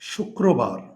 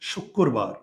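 First: The middle cluster is pronounced as k plus r. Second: The middle cluster is pronounced as a double k.

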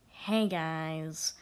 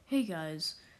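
First: It is said imitating the YouTuber's voice. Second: It is said in the speaker's own voice.

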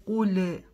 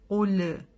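The two takes are said the same way.

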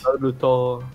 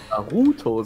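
First: The u is said plainly, without extra stress. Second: The u is strongly stressed and drawn out. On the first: "Je nachdem, wie weebig du sein möchtest" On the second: "Das U so richtig betonen"

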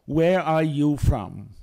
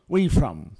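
First: Each word is said separately and in full. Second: The words run together in a reduced form. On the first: This is how it is written. "Assim se escreve" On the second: This is how people actually speak. "Assim falamos"

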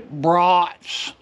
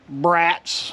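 First: It does not sound like the word for children. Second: It sounds like the English word for unruly children. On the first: The speaker calls it right. "I've got to say brats" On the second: The speaker calls it wrong. "I can no longer say brats"

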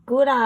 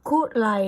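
First: The word begins with a voiced g sound. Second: The word begins with a voiceless k sound. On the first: "จะคอควายหรือกอไก่ก็ได้" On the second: "จะคอควายหรือกอไก่ก็ได้"

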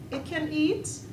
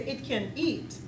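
First: The voice rises at the end. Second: The voice falls at the end. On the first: The speaker is asking whether it can be eaten. "then that means I'm asking you, can it be eaten?" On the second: The speaker is stating that it is able to eat. "then that means it has the ability to eat"

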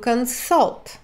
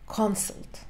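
First: The stress is on the last syllable. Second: The stress is on the first syllable. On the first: It is the verb meaning to seek advice. "Ударение на последний слог" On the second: It is the shortened noun for a consultation. "В сокращенном существительном ударение на первый слог"

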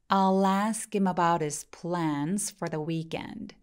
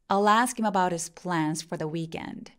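First: The sentence is spoken slowly. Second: The sentence is spoken at normal speed. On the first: "문장은 느리게 두 번" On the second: "normal speed로 두 번"

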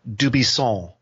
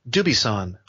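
First: The final N is nasal, French style. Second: The stress falls on the first syllable. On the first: "with that Gallic N that's up in your nose, that "aw" sound" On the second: "on the first syllable"

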